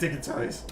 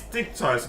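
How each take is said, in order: First: The name is said with three syllables. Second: The name is said with two syllables. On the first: The speaker calls it wrong. "not di uh, dicky toys" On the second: The speaker calls it right. "it's dick toys"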